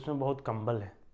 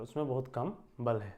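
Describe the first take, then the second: First: Kam and bal run together without a pause. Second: A short pause separates kam and bal. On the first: The phrase means nothing; it sounds like 'blanket'. The speaker calls it wrong. "तो इसका कोई अर्थ नहीं निकलेगा ना" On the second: The person has little strength. The speaker calls it right. "आपको वहाँ विराम देना पड़ेगा"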